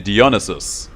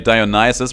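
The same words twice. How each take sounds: First: The name is pronounced in a German way. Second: The name is pronounced in an English way. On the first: "we would say Dionysus" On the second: "in Germany we wouldn't say Dionysus"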